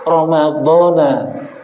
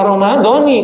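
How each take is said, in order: First: The word ends with an 'a' vowel. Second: The word ends with an 'i' vowel. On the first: The word is treated as a noun that takes no full case ending. "Kalau dibaca Ramadhana menggunakan isim ghairu munsharif" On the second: The word follows the case of the phrase before it. "kalau dibaca Ramadhani, karena mencoba kalimat fardhis syahri Ramadhani, kalimatnya muttaba'ah"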